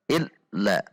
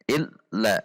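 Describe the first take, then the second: First: The doubled consonant is clipped abruptly. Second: The doubled consonant is clipped abruptly.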